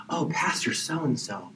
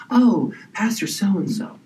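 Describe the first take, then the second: First: Breathless whisper of adoration; awed whisper. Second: Higher, swooning drawn-out gush; gushing admirer. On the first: A congregant whispering in awe of the pastor. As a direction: whisper the name like it's holy. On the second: A congregant gushing over the pastor, swooning. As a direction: swoon over the name, slowly. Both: Retold or imitated.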